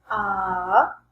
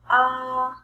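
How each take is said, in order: First: The pitch dips low and then rises. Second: The pitch stays high and level.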